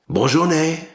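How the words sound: It is said with an exaggerated French accent. "let me try to affect more of a French accent"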